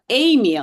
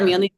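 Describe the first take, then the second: First: The stress is on the first syllable. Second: The stress is not on the first syllable. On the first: The speaker calls it right. "stress the E" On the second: The speaker calls it wrong.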